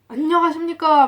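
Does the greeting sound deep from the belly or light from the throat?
throat. The voice is light, coming from the throat. "우리는 지금 목에서 말을 하잖아요"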